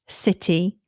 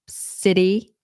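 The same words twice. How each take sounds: First: The middle T is a clear T. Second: The middle T is a quick flap. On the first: This is a more British way. "you're more likely to hear the T" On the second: This is the more American way. "that's more American"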